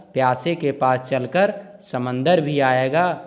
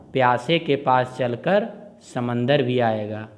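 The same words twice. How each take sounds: Both takes have the same delivery.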